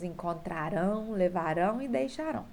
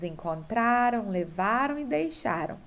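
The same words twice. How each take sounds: First: "encontrarão, levarão e deixarão" each stressed on final "rão"; last-syllable stress. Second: "encontraram, levaram e deixaram" stressed on "tra", "va", "xa"; penultimate stress. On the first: Teacher reading the verb table, "encontrarão, levarão e deixarão" stressed on the last syllable. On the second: Teacher reading the verb table, "encontraram, levaram e deixaram" stressed on the penultimate. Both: Shown as a demonstration. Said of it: "circular a sílaba tônica".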